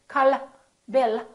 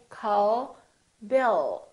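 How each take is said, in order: First: The final L is short and released. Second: The final L is soft and prolonged. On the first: The speaker calls it wrong. "We don't say" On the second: The speaker calls it right. "We say call Bill"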